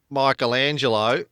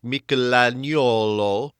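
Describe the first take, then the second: First: The name is said in the usual modern pronunciation. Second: The name is said in an older Tuscan pronunciation. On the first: This is how people say it today. "instead of Michelangelo, as we tend to pronounce it" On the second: This is how it sounded in the sixteenth century. "it would have sounded to modern ears like"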